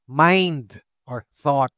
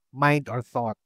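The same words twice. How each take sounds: First: Slow gloss. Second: Said in the usual way. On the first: Shown as a demonstration.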